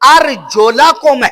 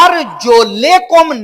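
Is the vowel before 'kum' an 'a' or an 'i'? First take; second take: a; i. First: The vowel before kum is an a sound. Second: The vowel before kum is an i sound. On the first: The feet are joined to the washing. The speaker calls it right. "अर्जुला कुम है" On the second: The feet are joined to the wiping. The speaker calls it wrong. "यानी जेर थी, अर्जुले कुम होना चाहिए था। अर्जुले कुम नहीं"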